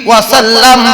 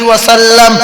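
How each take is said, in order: The two takes are said the same way.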